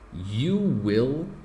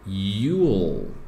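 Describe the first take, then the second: First: Both words are said fully and separately. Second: The two words merge into one short syllable.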